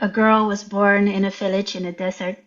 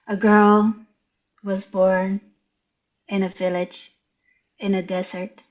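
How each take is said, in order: First: It is read at a normal pace. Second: It is read very slowly.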